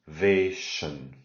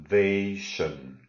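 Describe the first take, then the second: No difference in how they are said.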